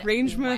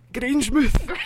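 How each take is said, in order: First: It is said in the speaker's ordinary accent. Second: It is said in a put-on Scottish accent.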